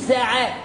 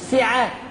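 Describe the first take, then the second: First: The s is followed by an open a vowel. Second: The s is followed by a narrow i vowel. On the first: The speaker calls it right. "الحرص على فتح السين" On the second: The speaker calls it wrong. "مش ساعة"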